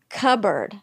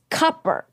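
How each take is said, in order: First: The middle p sound is silent. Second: The middle p sound is pronounced. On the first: "I say it cupboard" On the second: "she says cupboard. Well, that's how it's spelled"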